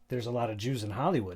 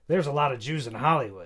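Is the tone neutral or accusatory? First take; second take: neutral; accusatory. First: It is said in a plain, neutral tone. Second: It is said in a loaded, accusatory tone.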